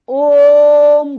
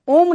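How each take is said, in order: First: The vowel is drawn out for extra time. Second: The vowel is held for a normal length. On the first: The speaker calls it right. "ये ओम पढ़ा जाएगा" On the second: The speaker calls it wrong. "ये ओम नहीं पढ़ा जाएगा"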